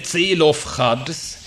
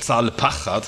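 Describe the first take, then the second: First: The name is voiced as Zelophchad, starting with Ze. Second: The name is voiced as Zalpachad, starting with Za. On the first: The speaker calls it wrong. "Man sollte das anders vokalisieren" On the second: The speaker calls it right. "Zalpachad heißt das eigentlich"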